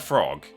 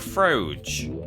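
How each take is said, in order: First: The word is said in the ordinary way. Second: The word is said with an imitated, altered vowel.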